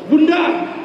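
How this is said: It is said in an irritated, annoyed tone. The mothers resent always being the ones who go. "Bundanya menjawab dengan nada kesel"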